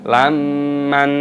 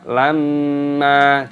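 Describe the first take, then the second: First: The word ends with an added n sound. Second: The word ends on an open vowel. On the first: The speaker calls it wrong. "jangan dibaca lamman, salah" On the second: The speaker calls it right. "dibaca lamma"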